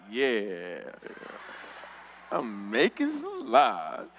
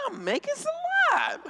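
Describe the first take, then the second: First: Slow, low, stretched-out confirmation; smug mock piety. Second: Very high, drawn-out whine; mock protest. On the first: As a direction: agree slowly and low from mid-prayer. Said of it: "I'd be like". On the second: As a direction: protest high, dragging out the words. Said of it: "I was like".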